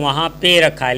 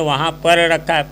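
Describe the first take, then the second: First: The word before 'rakha' is shortened to 'pe'. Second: The word before 'rakha' is said in full, 'par'. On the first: This is the casual spoken form. "बोलने को हम कहते हैं" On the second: This is the form used in writing. "लेकिन लिखेंगे"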